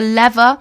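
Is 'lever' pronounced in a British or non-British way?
non-British. The word is said with a non-British pronunciation.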